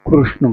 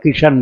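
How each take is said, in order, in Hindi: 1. नाम वैसे बोला गया है जैसे गुजराती बोलते हैं। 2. नाम पंजाबी अंदाज़ में Kishan की तरह बोला गया है। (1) "गुजरात में कृष्ण कृष्ण बोलते हैं" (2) "पंजाब में किशन बोलते हैं"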